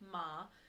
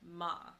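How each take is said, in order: First: The pitch rises from mid to high. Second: The pitch falls sharply from high to low. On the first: The word means numb. "your second tone, which is your rising tone" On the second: The word means to scold. "your fourth tone, which is your falling tone"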